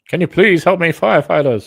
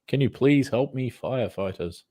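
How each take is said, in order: First: It is said in a put-on, unnatural voice. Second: It is said in a natural, accented voice. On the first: The speaker calls it wrong. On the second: The speaker calls it right.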